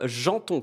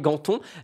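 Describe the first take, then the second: First: The name begins with a soft 'zh' sound. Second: The name begins with a hard 'g' sound. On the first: The speaker calls it right. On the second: The speaker calls it wrong.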